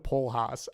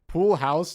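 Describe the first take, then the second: First: It is said in a Pittsburgh accent. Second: It is said in a standard accent.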